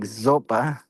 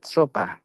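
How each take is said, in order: First: The name begins with a buzzing z sound. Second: The name begins with a hissing s sound. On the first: The speaker calls it wrong. "not to pronounce it like Zopa" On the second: The speaker calls it right. "but Sopa"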